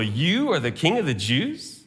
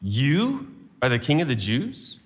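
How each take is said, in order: First: "You" stressed with quiet contempt; scornful question. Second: "You" hit first, question rising; "You" stressed, low incredulous question. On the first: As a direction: ridicule him as a mock king. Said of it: "with contempt and ridicule". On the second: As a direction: lean on "You" in disbelief. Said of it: "puts the emphasis on you". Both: Shown as a demonstration.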